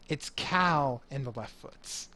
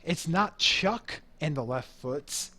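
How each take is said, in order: First: Cal picked out slowly and firmly; stress on Cal. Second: Chuck picked out slowly and emphatically; stress on Chuck. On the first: Band leader insists on his own name, stressing Cal. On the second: Band leader rejects the wrong band name, stressing Chuck. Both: Acted.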